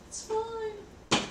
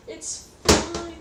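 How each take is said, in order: First: Very high, softer squeaky reassurance. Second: Higher, louder insisting reassurance. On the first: Assuring mom it's fine, very high squeak. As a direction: squeak it out like a fib. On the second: Telling panicked mom not to worry, higher insisting. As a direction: insist to mom it's fine. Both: Retold or imitated. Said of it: "I'm like".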